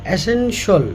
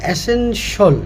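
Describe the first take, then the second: The two takes are said the same way.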